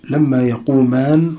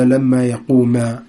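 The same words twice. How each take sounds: First: يقومان with the final نون sounded, slowly; slow, keep the نون of يقومان; wrong form. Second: يقوما ending on the ألف, no نون, slowly; slow, drop the نون: يقوما; correct form. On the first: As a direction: slowly read mistaken يقومان. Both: Shown as a demonstration. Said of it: "ولا".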